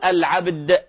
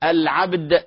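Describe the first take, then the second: The two takes are said the same way.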